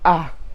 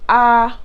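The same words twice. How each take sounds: First: The vowel is said on a low pitch. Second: The vowel is said on a high pitch.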